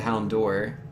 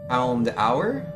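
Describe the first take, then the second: First: The second part sounds like 'door'. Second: The second part sounds like 'hour'. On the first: This is how the speaker has always said it. "I've always said hound door, like just like the door that you knock on" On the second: This is how the anime says it. "in the anime they say it as hound hour"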